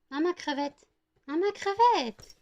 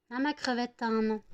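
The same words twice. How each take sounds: First: Much higher, slower, cooing to the puppy; high stretched coo at the dog; doting dog owner in a very high, slow coo. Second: Said in the usual way. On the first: Real, not acted. Baby talk to the dog.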